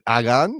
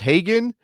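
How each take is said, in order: First: The name starts with a vowel, no H. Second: The name starts with an audible H sound. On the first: "in Spanish, of course, you don't usually say the, the H" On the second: "I don't know if it's Hagen"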